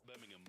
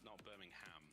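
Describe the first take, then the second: First: The last syllable is a weak 'um' sound. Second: The last syllable is a full 'ham' sound. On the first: The speaker calls it right. "you say it right, it's Birmingham" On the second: The speaker calls it wrong. "not Birmingham, not Birmingham. There's no, there's no bovine, no pork involved"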